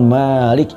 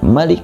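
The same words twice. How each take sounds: First: The first vowel is said long. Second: The first vowel is said short. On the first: It means owner. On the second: It stresses who truly holds power, as king.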